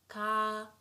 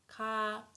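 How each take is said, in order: First: The vowel is held long. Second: The vowel is held long.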